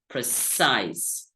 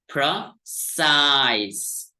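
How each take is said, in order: First: The second syllable is stressed at normal length. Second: The second syllable is stretched very long and high.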